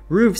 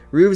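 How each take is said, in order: First: The word ends with an f sound. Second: The word ends with a v sound. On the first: This is the standard plural everywhere. "Roofs is the plural of roof in all varieties of English" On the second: This is an old, occasional form. "Roofs is an old secondary form"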